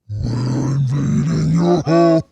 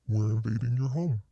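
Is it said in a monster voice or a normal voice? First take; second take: monster voice; normal voice. First: It is said in a put-on monster voice. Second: It is said in the speaker's normal voice.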